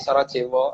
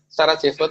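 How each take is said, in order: First: The word is said with a W sound. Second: The word is said with a V sound.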